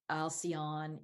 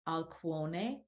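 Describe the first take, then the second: First: The name is said with English vowel sounds. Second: The name is said with Greek vowel sounds. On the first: "now we might say" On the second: "how the Greeks pronounce them"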